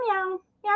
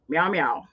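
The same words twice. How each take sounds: First: It is said in an ordinary voice. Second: It is said in a deeper voice.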